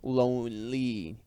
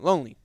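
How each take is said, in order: First: The two words are said apart. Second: The two words run together quickly.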